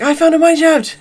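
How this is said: It sounds excited and thrilled.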